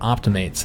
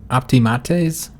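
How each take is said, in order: First: It is said with anglicized English sounds. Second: It is said with Latin-like vowel sounds. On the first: This is the popular English form. "the common way that, that it's pronounced in English" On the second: This is closer to the original pronunciation. "I think it's pronounced like optimates"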